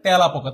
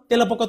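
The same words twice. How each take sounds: First: The first vowel is an open 'a' as in cat. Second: The first vowel is a plain closed e sound. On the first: The speaker calls it right. "সকলে উচ্চারণ করে কিভাবে? ... এটার উচ্চারণটা হচ্ছে অয়জফল আকার" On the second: The speaker calls it wrong. "তোমরা আশা করি কেউ বলো না"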